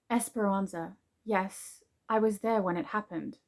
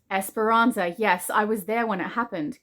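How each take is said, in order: First: It is spoken softly and quietly. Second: It is spoken at a normal, not soft, volume.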